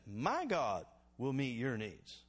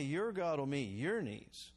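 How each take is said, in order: First: « My » appuyé, puis « your » posé; stress on my. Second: « your » appuyé, posé et lent; stress on your. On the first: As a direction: lean hard on "My", slow and deliberate. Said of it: "He said". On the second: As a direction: hit both "your" slowly and firmly. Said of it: "He didn't say". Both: Shown as a demonstration.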